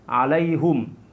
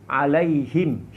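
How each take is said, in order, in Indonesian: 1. Huruf h diikuti vokal u. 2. Huruf h diikuti vokal i. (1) "dengan membaris depankan huruf ha dan mensukunkan huruf mim" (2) "Dengan membarisbawahkan huruf ha"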